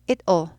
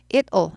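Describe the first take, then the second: The two takes are said the same way.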